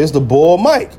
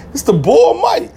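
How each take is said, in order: First: Said in the usual way. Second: "It's the Bull Mike" said slow and higher, leaning on "Mike"; proud nickname. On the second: Retold or imitated. Introducing himself on the phone, slow and higher with pride. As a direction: announce "Bull Mike" slowly, up high, proudly.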